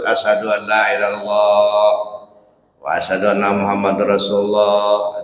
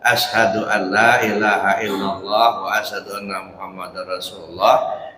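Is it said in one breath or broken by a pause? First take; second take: broken; one breath. First: It is broken by a pause midway. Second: It is said in one unbroken breath.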